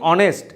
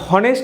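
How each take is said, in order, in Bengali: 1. শব্দটি স্বরবর্ণ দিয়ে শুরু, কোনো h নেই। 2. শব্দটি শোনা যায় এমন h দিয়ে শুরু। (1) "এইচ সাইলেন্ট থাকছে" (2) "এখানে আমরা হনেস্ট উচ্চারণ করি না"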